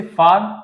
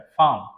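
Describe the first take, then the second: First: फार्म with a clear R; American farm. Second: फार्म as फाम, no R; British farm. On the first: Teacher giving the American फार्म to students. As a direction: sound the R in फार्म. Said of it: "American फार्म". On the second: Teacher giving the British फार्म to students. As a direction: drop the R in फार्म. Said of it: "ये आपका H हो जाता है". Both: Shown as a demonstration.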